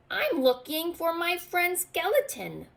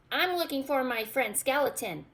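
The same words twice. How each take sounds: First: High, eager little goblin voice. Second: Goblin voice. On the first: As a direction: pitch it up as the small goblin asking about his friend. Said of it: "Goblin told him". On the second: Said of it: "said Goblin". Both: A narrator's reading.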